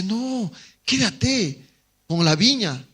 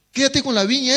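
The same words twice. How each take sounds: First: Said in the usual way. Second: Urging, pitched higher; tempting inner voice. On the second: Retold or imitated. Tempting thought urges him to keep the vineyard, pitched higher. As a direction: press the temptation harder. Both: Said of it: "otro pensamiento le dice".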